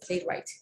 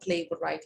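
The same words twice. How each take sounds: First: The W sound is left out. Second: The W sound is pronounced. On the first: The speaker calls it right. "W is silent" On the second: The speaker calls it wrong. "It's not playwright"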